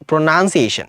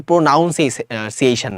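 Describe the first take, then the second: First: প্রোনাউন্সিয়েশন with "nun" in the middle, not "noun"; short "nun" vowel in প্রোনাউন্সিয়েশন; correct pronunciation. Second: প্রোনাউন্সিয়েশন with a drawn-out "noun" in the middle; the mistaken "noun" diphthong in প্রোনাউন্সিয়েশন; mispronunciation demo. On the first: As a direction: say প্রোনাউন্সিয়েশন as pro-nun-see-AY-shun. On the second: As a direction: say প্রোনাউন্সিয়েশন slowly as pro-NOUN-see-ay-shun. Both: Shown as a demonstration. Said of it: "এটা কিন্তু প্রোনাউন্সিয়েশন না".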